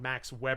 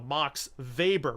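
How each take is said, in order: First: The surname begins with a W sound. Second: The surname begins with a V sound. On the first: The speaker calls it wrong. "We would never say" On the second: The speaker calls it right. "pronounced it from the German spelling"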